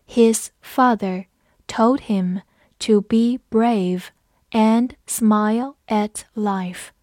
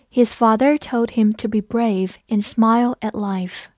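First: Slow, phrase by phrase with clear gaps; slow read-along. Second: Said in the usual way. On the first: Shown as a demonstration. Teacher leads learners through the example sentence, slow reading. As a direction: read it slowly so learners can follow. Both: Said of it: "跟着我慢读一遍".

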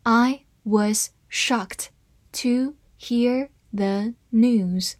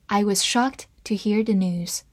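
First: Slow, word-by-word model reading. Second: Said in the usual way. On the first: Shown as a demonstration. Teacher reads the example sentence for learners, slowly word by word. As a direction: read it slowly, separating each word. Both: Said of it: "慢慢来读".

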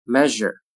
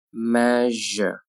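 First: Said in the usual way. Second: "Measure" slowly with a held zh; slow careful "Measure"; drawn-out model. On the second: Shown as a demonstration. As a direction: stretch "Measure" out for learners. Teacher models word slowly, then normally.

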